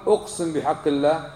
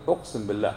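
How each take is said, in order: First: The phrasing to avoid; wrong oath wording. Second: The approved phrasing, said lower and softer; correct oath wording. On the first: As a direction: say it as the form he forbids. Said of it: "لا تقل". (الصيغة الخاطئة) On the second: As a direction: give it as the right way to swear. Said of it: "لا، قل". (الصيغة الصحيحة بصوت أخفض) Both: Shown as a demonstration.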